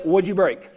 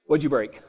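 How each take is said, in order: First: Said in the usual way. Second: Cowboy retort. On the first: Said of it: "exactly what I said". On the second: Retold or imitated. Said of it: "the first word a cowboy says".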